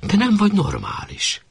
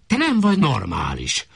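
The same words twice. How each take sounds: First: Much higher, throwing his words back at him; mocking echo. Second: Snapped rebuke. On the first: Wife mockingly repeats her husband's insult. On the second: Acted. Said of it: "rivalt rá Vizi".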